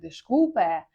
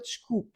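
First: The final vowel is clearly pronounced. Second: The final vowel is dropped entirely. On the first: The speaker calls it wrong. "не вимовляємо як е" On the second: The speaker calls it right. "а просто чкуп. Воно з'їдається, не вимовляється"

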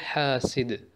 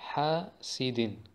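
First: The word ends on a bare final consonant. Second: The word ends with a nasal 'in' sound. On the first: The reader stops on this word. "Stoppen wir, sagen wir" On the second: The word is read on, without stopping. "kommen wir jetzt zu den Tanwin al-Kasra"

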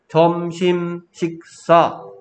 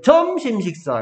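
First: Every syllable gets the same even force. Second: Some syllables are said stronger than others. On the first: The speaker calls it right. "우리는 점심 식사 땅땅땅땅" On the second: The speaker calls it wrong. "어떤 건 세게 읽고 점심 식사 이렇게 얘기하는 사람 없잖아"

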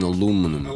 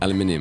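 First: It is said with an American, New York pronunciation. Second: It is said with a British pronunciation, five syllables. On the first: "Does that sound like New York? Hey man" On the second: "It's aluminium where you're from"

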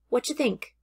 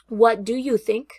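First: 'What do you' is blended into 'whatcha'. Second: Each word of 'what do you' is said separately. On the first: "Each of these sentences can reduce to the sound of whatcha" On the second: "I have three different sentences here on the right"

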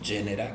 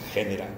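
First: It is pronounced in the Italian style. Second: It is pronounced in the Spanish Low Latin style. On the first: The speaker calls it wrong. "que eso es italiano" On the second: The speaker calls it right. "yo creo que es genera, porque le ha dado género en español"

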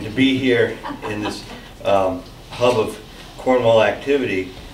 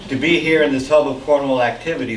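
First: It is said quietly. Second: It is said loudly.

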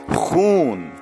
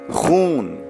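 The two takes are said the same way.

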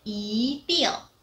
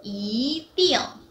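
Both takes have the same delivery.

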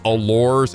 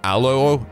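First: The final consonants are pronounced. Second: The final consonants are silent. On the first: The speaker calls it wrong. "it looks like it says allures" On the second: The speaker calls it right. "is actually just allo"

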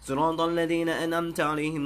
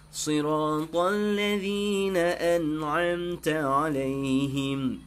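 First: It is recited quickly. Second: It is recited at a moderate pace. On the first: It is for reviewing memorized verses. "baca bab cepat" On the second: It is for leading the prayer. "Ah ni rubab tadwir"

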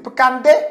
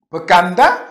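First: The word ends in an 'e' vowel. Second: The word ends in an 'a' vowel.

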